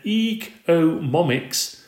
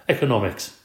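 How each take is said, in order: First: Ecomomics, slow and stumbling, m for n; mispronounced. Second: Economics said carefully and correctly; corrected. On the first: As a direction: say ecomomics with an m, slowly. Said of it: "Gail started giggling". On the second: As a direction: say Economics properly, cleanly. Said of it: "corrected himself". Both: Acted.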